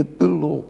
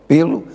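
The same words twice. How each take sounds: First: Pelou with the first vowel swallowed, p'lo; unaccented preposition pelo. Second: Pelo stressed on an open first syllable, PÉ-lo; accented pelo. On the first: Distinguishing the contraction, pelou as p'lo. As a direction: say pelou as a weak, reduced p'lo. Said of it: "Contração da preposição por". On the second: Explaining the spelling accent, Pelo as PÉ-lo. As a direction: say Pelo with a full first vowel. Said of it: "o acento em pelo". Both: Shown as a demonstration.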